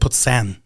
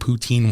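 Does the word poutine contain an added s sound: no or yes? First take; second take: yes; no. First: It is said with an added s sound. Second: It is said without an s sound. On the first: This imitates how someone else says it. "He puts an S in there even. It's like poutine, like the way he says it" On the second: This is how the speaker normally says it. "I said poutine once"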